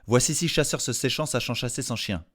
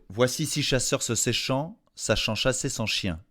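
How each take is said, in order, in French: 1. Elle est prononcée à un rythme plus rapide. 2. Elle est prononcée à un rythme lent et posé.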